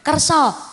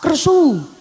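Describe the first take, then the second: First: The word ends with an open 'ah' vowel. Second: The word ends with a rounded 'oo' vowel. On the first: This is the usual form of the word. "Mboten kersa" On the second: This is how people in this area say it. "mriki nadane ngono"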